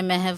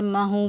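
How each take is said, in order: First: The word ends in a 'v' sound. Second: The word ends in a long 'oo' vowel. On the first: The speaker calls it right. "महव होता है" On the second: The speaker calls it wrong. "महू बोलते हैं"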